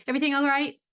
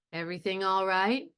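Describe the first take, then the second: First: Much higher and louder, brisk; quick high. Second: Slow and careful, calm; slowly. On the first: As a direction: fire it off high and bright. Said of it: "It's not gonna be". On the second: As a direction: drag it out carefully. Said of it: "he's going to say it slowly". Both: Shown as a demonstration.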